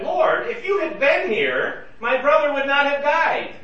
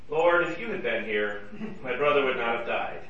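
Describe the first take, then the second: First: It is said in an accusing tone. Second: It is said in a regretful tone. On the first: The listener is being blamed for what happened. "Well, that's an accusation" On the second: Only sorrow about what happened is expressed. "That's maybe less of an accusation and more just a statement of regret"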